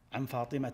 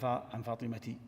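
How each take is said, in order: First: The name ends in a short 'a' sound. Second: The name ends in an 'in' sound. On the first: The speaker calls it right. "عن فاطمة رضي الله عنها" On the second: The speaker calls it wrong. "ما تقول عن عن فاطمة"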